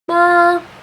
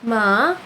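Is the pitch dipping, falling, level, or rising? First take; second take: level; dipping. First: The pitch stays high and level. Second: The pitch dips down then rises again. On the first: "tone one is a flat tone, a flat high tone" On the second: "you dip down and back up again"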